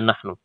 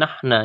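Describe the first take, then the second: First: The word ends in a u vowel. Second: The word ends in an a vowel. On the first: The speaker calls it right. "Senantiasa dibaca nahnu" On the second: The speaker calls it wrong. "nahna ya"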